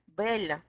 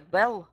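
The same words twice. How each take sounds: First: The final L is soft, as in French. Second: The final L is hard, as in English. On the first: "on dit le, elle, belle" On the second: "s'il n'a pas de signe on prononce comme en anglais"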